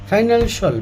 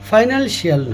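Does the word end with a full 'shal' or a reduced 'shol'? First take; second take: reduced shol; full shal. First: The ending is said as a reduced 'shol'. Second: The ending is said with a full 'shal' vowel. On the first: The speaker calls it right. "এটা ফাইনালশল" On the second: The speaker calls it wrong. "ফাইনালশিয়াল হবে না"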